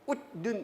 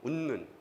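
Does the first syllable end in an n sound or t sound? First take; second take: t sound; n sound. First: The first syllable ends in a t sound. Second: The first syllable ends in an n sound. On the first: The speaker calls it wrong. "웃는 이렇게 안 하죠" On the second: The speaker calls it right. "웃는이 되죠"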